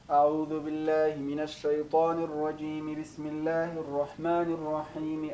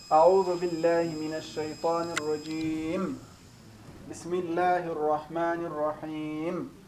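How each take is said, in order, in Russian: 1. Две фразы произносятся слитно, без паузы. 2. Между двумя фразами есть пауза. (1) "все вместе, как говорится, на одном дыхании" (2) "Пауза после истиазы перед басмалей"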